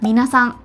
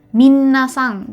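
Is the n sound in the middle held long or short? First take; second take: short; long. First: The middle n sound is short. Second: The middle n sound is held long. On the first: The speaker calls it right. "N-nya satu aja" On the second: The speaker calls it wrong. "masih banyak yang menyebutkannya tuh"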